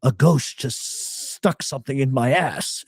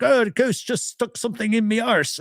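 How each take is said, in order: First: Said in the usual way. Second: High-pitched imitation of a Scottish accent. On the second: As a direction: mimic the ghost hunter in a high Scottish accent. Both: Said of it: "he's Scottish, so he's like".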